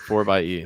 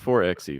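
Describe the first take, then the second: First: The middle is said as the word 'by'. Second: The middle is said as the letter 'ex'. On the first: The speaker calls it right. "how they prefer to pronounce that name" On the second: The speaker calls it wrong. "not four X E"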